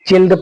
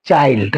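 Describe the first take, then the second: First: The vowel is a short 'i' sound. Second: The vowel is a long 'eye' sound. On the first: The speaker calls it wrong. "चिल्ड पढ़ने पर गलत हो जाएगा" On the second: The speaker calls it right. "इस आई को आई की तरह उच्चारण करेंगे"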